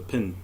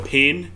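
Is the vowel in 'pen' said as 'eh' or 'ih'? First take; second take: ih; eh. First: The vowel sounds like the 'i' in 'bit'. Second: The vowel sounds like the 'e' in 'bed'. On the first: "a New Zealand accent is you just take the vowels out of every word" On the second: "instead of um, writing with a pen"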